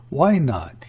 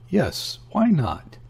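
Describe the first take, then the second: First: Slightly mocking. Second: A touch of petulance on why not; lightly capricious, a little pouty; slightly petulant. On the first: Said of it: "with a slightly mocking accent". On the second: Woman pressing her lover for a tale, mildly petulant. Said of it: "These words came with a slight petulance". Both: A narrator's reading.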